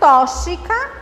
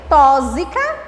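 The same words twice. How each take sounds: First: The x is sounded like sh. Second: The x is sounded like a z. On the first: "com C H" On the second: "com Z"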